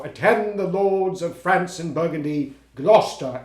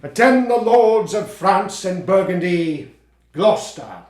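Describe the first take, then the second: First: Lightly hammed-up kingly proclamation, a bit slower; mock Lear declamation. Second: Slow, loud, booming royal proclamation; grand Lear declamation. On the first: Actor showing his friend how he'll open as Lear, lightly hammed. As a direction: toss off a quick sample of the grand line. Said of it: "I'm gonna go". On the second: Acted. Actor rehearsing Lear's opening, booming and slow. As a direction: command the court like an old king, slowly.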